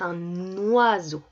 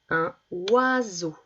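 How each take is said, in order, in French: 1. Un son n se lie au mot suivant. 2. Le n ne passe pas au mot suivant. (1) "normalement on devrait dire un oiseau" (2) "Je ne fais pas la liaison"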